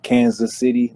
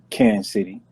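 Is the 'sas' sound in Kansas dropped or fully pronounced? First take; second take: fully pronounced; dropped. First: The 'sas' sound in Kansas is fully pronounced. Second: The 'sas' sound in Kansas is dropped. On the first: The speaker is not really from the city. The speaker calls it wrong. "they not really from here. They from the outskirts" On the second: The speaker is a true local. The speaker calls it right. "the true motherfuckers from Kansas City pronounce it Kansas City. We don't pronounce the S A S"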